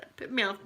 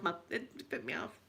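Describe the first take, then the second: First: Said in the usual way. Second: Much softer, dropped-away "it put me off"; quiet emphatic repeat. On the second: Real, not acted. Still put off by the seagull, repeated much softer. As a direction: murmur "it put me off" to yourself, softer.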